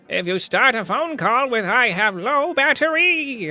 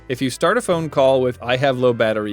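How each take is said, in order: First: It is said in a put-on villain voice. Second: It is said in the speaker's normal voice.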